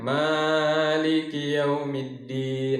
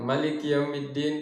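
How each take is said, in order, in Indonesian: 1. Vokal setelah m dipanjangkan dua harakat. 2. Vokal setelah m tetap pendek. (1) "panjang dua harokat saja" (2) "Ini bukan Maliki Yaumiddin, tidak dipanjangkan"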